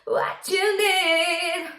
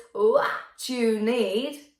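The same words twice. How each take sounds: First: Slow, high head-voice fry scream, sung; mini fry scream. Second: Fry scream. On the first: Coach demos the mini fry scream in head voice. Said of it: "moved up to your head voice". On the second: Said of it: "kind of a fry scream". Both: Shown as a demonstration.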